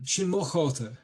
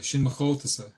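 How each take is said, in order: First: "mo" emphasised, pitched higher, like English "my"; stress on MO. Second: Said in the usual way. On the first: Shown as a demonstration. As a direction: punch "mo" as arguing children would. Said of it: "you wouldn't emphasize the word mo". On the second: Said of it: "the way that's done in Irish".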